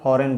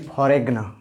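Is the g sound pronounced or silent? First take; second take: silent; pronounced. First: The g is silent in the word. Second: A g sound is heard before the n. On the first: The speaker calls it right. "इसको फॉरेन बोला जाता है" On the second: The speaker calls it wrong. "ऐसा नहीं कि फॉरेग्न"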